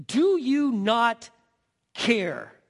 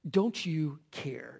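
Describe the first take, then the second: First: Slow, loud, stretched do you not care; slow reproach. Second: Soft, slow don't you care; self-pitying question. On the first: Martha rebuking Jesus, slow and accusing. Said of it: "she says". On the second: Martha pitying herself before Jesus, soft and slow. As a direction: let it sink low in self-pity. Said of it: "All the serving alone". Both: Acted.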